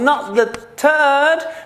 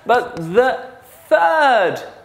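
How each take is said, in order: First: The first sound is not a th sound. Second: The first sound is a th sound. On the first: The speaker calls it wrong. "No, no, no, not the third" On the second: The speaker calls it right. "Put your tongue outside"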